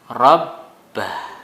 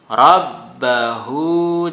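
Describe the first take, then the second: First: The word ends on a stopped consonant. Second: The word ends with a vowel sound. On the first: The reader stops at this point. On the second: The reading continues without a stop.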